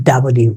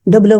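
First: ডাব্লিউ with an open "dab" start; correct pronunciation. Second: ডব্লিউ said as "dob-liu"; wrong pronunciation. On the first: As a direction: say ডাব্লিউ as "da-bliu", lower in pitch. (ডাব্লিউ, শুদ্ধ উচ্চারণ) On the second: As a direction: say ডব্লিউ with a rounded first vowel, "dob". (ডব্লিউ, ভুল দেশি উচ্চারণ) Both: Shown as a demonstration. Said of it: "ডব্লিউ বলতে কিছু নেই".

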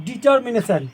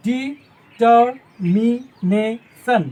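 First: Said in the usual way. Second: "ডিটারমিনেশন" extremely slowly, syllable by syllable; long gaps between the syllables of "ডিটারমিনেশন"; split into syllables. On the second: Shown as a demonstration. Teacher showing the division, "ডিটারমিনেশন" in separate syllables. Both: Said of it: "ভাগ করে দিই".

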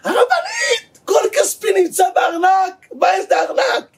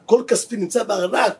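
First: High-pitched desperate mock shouting; צעקה. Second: Said in the usual way. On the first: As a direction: play a frantic husband crying out for his money. (צעקה גבוהה ונואשת) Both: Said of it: "התחיל לצעוק".

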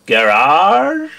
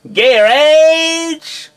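First: Said in the usual way. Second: "Garage." in American accent, KEH-redge, pitched high. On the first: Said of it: "the words that Joe has asked me to read". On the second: Shown as a demonstration. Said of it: "in my American accent".

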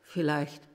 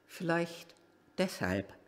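First: Said in the usual way. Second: Musing echo, much softer. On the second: Real, not acted. Driver musing to himself, softer echo. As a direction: repeat "vielleicht" far softer, fading away.

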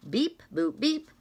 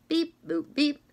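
Both takes have the same delivery.

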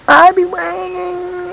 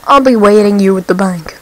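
First: High, slow put-on villain voice; character voice. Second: Said in the usual way. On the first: Voicing the game's crook to his partner, in a high slow put-on voice. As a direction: drawl it like a game gangster.

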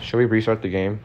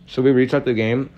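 First: Said in the usual way. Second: Talking with food in mouth; words round a bite of food; mouth full. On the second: Real, not acted. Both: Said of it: "have food in my mouth".

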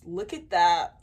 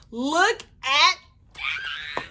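First: Said in the usual way. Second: Teary, drawn out. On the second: Real, not acted. Stretched, teary repeat.

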